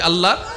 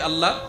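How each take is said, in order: First: The word is said more loudly. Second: The word is said at normal loudness.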